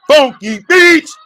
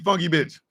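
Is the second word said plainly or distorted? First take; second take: distorted; plain. First: The second word is said in a distorted way. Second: The second word is said in its plain form. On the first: The speaker calls it wrong. "I said it in a way to make sure that she understands that I don't like her ass" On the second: The speaker calls it right. "It's supposed to be funky bitch"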